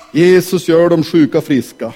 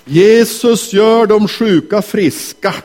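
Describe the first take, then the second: First: Said in the usual way. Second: Slow announcement. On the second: Shown as a demonstration.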